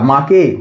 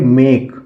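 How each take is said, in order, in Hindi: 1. स्वर लंबा 'aa' वाला है। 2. स्वर 'ay' वाला है। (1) "ना आ से प्रोनाउंस कर सकते हैं" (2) "हम उसको प्रोनाउंस करेंगे ए से"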